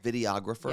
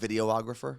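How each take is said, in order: First: It is said without an extra 'og' syllable. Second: It is said with an extra 'og' syllable. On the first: The speaker calls it right. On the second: The speaker calls it wrong. "You're adding another og"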